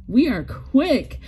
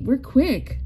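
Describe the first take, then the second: First: "We are quick" said slowly, each word pressed; slow firm "We are quick" as a point of pride; slow insistent emphasis. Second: Said in the usual way. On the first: Real, not acted. Repeats claim for emphasis.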